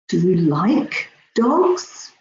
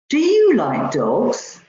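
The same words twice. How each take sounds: First: The stress falls on the word like. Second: The stress falls on the word you. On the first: The speaker is surprised by the liking. "I'm really surprised" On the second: The question is about this person rather than somebody else. "Rather than somebody else"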